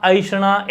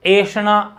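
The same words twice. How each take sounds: First: ऐषणा said "ishana" with a short final "a"; aishana with short ending. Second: ऐषणा said "eshanaa" with the last vowel drawn out; eshana with long final vowel. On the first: Teacher contrasting two spellings, short-ending ऐषणा. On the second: Teacher contrasting two spellings, long-ending ऐषणा. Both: Shown as a demonstration.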